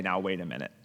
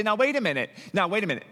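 First: Much lower and softer, humble; hushed, humbled realization; humbled pause. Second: Mock-indignant protest; indignant objection. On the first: Pretend. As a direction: say it low, as if caught out yourself. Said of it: "You should say". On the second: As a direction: object as if you've been wronged. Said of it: "And you say".

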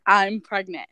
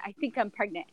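First: Said in the usual way. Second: Hedged I think I'm pregnant, quieter; softer hesitant version; tentative, softer. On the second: Retold or imitated. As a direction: say it unsure, pulling back. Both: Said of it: "well, I, I said".

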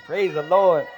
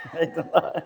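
First: Said in the usual way. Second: Laughing. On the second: Real, not acted.

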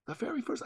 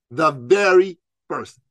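First: Much higher and softer, almost to himself; The very first, high and hushed; high soft echo. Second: Very slow, each word weighted; The very first, slowed right down; slow emphatic. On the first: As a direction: float it up high and quiet. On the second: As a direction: lean on VERY and drag it out. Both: Shown as a demonstration. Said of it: "The first".

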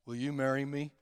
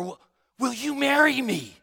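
First: Low, soft, listless ask; a dull, lower, quieter marriage question; flat mumbled proposal. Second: Higher, livelier ask with feeling; heartfelt, keen marriage question; eager proposal. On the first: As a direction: propose with no feeling at all. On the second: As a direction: propose like you mean it. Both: Shown as a demonstration. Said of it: "your tone of voice makes a difference".

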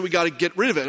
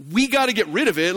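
First: Said in the usual way. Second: "We" punched in disbelief; incredulous stress on We. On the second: Retold or imitated. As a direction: hit "We" hard, as if questioning who. Incredulous reply stressing who must act.

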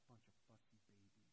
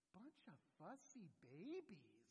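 First: Very soft, low grumble; imagined muttered aside, much lower and softer; mumbled under the breath. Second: Slow, drawn-out swooping mockery; exaggerated sing-song jibe; mocking taunt. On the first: Retold or imitated. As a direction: mutter it aside, barely voiced. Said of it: "mumbled under his breath after that". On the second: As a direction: tease whiners with long, swooping vowels. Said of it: "term that comes just bubbling out my lips".

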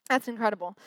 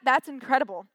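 First: Said in the usual way. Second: First, admiring take of "that's incredible"; amazed. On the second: Real, not acted. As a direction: lift "that's incredible" in wonder.

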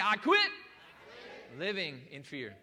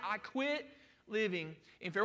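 First: Slow shouted declaration with QUIT punched; emphatic declaration. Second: Said in the usual way. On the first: Shown as a demonstration. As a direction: shout "I quit" for emphasis, then finish slowly. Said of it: "one more time for emphasis". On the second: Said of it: "simply learn to say".

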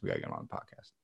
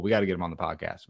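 First: Much lower, joking deep repeat of the line; lowered, hammed-up announcer-style voice; mock deep voice. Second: Said in the usual way. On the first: Shown as a demonstration. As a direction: drop way down for a goofy echo. Repeated in a put-on voice.

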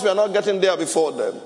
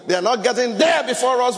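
First: Said in the usual way. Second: Raised, higher preaching shout; emphatic shout. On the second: Real, not acted. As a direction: hammer the point home. Emphatic sermon point.

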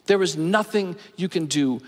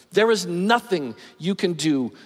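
The two takes are said the same way.

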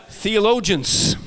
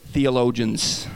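First: Theologians, slowly and syllable by syllable; careful pronunciation. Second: Theologians again slowly, voice lower and settled; second careful try. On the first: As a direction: pronounce Theologians slow and deliberately. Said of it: "that's a hard word for Swedish people". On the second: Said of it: "Here we go". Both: Shown as a demonstration.

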